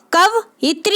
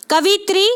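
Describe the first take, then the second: First: "कवयित्री" split as kav-itri; careful "कवयित्री", kav then itri; correct pronunciation. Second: "कवित्री" run together as ka-vi-tri; wrong form "कवित्री", missing the y glide; mispronounced word. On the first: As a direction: say "कवयित्री" with a break after kav. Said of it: "ये भी सही है". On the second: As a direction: say "कवित्री" with vi straight into tri, no break. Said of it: "गलत है". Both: Shown as a demonstration.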